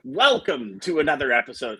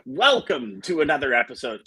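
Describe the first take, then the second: First: It is said in a put-on radio announcer voice. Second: The same.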